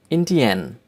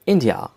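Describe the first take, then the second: First: "Indian" in German, as IN-dee-en; German-style "Indian" ending in 'en'; German pronunciation. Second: Said in the usual way. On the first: Shown as a demonstration. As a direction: say "Indian" as the German country name. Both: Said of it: "names of countries with German accent".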